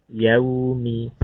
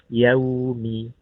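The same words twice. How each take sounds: No difference in how they are said.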